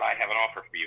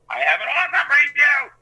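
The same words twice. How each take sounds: First: It is said plainly, at normal loudness. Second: It is screamed at the top of the lungs.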